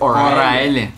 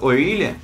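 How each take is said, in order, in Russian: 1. Средняя гласная звучит как 'eye'. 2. Средняя гласная звучит как 'ee'.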